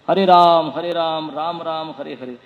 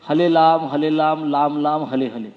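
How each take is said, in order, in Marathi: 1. हे शब्द R आवाजाने म्हटले जातात. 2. हे शब्द L आवाजाने म्हटले जातात. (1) "ते र आहे" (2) "र ल नाही आहे"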